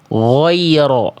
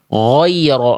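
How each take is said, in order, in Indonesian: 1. Bunyi pertama dibuat dengan bibir dimonyongkan dan membulat. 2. Bunyi pertama dibuat dengan bibir dimonyongkan dan membulat.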